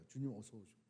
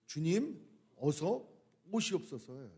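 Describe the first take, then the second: First: Softly, almost breathing the words 주님, 어서 오시옵소서; soft hushed prayer. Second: Said in the usual way. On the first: Shown as a demonstration. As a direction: pray 주님, 어서 오시옵소서 hushed and much softer. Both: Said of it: "그 찬양의 그 내용이 뭐예요?".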